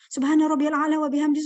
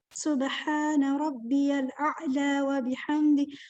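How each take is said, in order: First: It is recited quickly and hurriedly. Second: It is recited slowly and calmly. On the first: The reciter is not focused in prayer. The speaker calls it wrong. "kalau kita membacanya cepat-cepat, nggak khusyuk" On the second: The reciter is focused and at peace. The speaker calls it right. "kita jadi pelan-pelan khusyuk"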